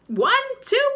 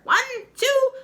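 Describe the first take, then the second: First: Very high, loud count; shrill witch counting, final. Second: Very high, loud count rising; shrill witch counting. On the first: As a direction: count again with menace. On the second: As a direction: count out the spell slowly. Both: Acted.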